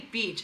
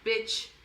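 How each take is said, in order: First: It is said with the standard 'beach' vowel. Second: It is said with a short 'bitch' vowel. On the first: The speaker calls it right. "when trying to say beach" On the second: The speaker calls it wrong. "a lot of Korean people can't pronounce beach. They say like bitch"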